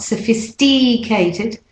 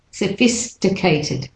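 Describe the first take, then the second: First: Sophisticated with a long DEE, suh-fis-DEE-kay-tid; wrong clear vowel. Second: Sophisticated as suh-FIS-tuh-kay-tid; correct short vowel. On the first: Teacher showing what not to say, sophisticated with DEE. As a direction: draw out a wrong ee inside sophisticated. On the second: Teacher giving the correction, sophisticated with short tuh. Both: Shown as a demonstration. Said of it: "not sophisticated".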